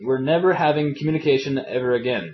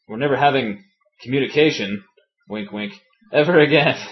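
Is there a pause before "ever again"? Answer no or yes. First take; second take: no; yes. First: It is said without a pause before "ever again". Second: There is a pause before "ever again".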